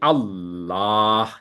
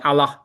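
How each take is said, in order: First: The vowel in the word is drawn out long. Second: The vowel in the word is kept short. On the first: The speaker calls it right. "Allah mem- mempunyai hak untuk dipanjang. Jadi Allah, gitu" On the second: The speaker calls it wrong. "Bukan Allah, gitu"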